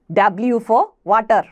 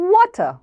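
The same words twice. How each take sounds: First: W for water with a plain v like വ; water with an unrounded va; wrong w. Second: Slow rounded water; correct water. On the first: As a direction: say water with a flat va. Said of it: "അല്ല". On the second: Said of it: "lip നമ്മൾ round ചെയ്തിട്ടാണ്". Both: Shown as a demonstration.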